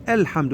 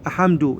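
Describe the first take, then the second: First: الحمد with the L of ال clearly sounded; careful teacher's model of الحمد; correct pronunciation. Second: أحمد with the L dropped; demonstrated mistake, أحمد without any L sound; wrong pronunciation. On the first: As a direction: voice the lam in الحمد. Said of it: "نقول". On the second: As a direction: swallow the lam, saying أحمد. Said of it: "مو نقول". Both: Shown as a demonstration.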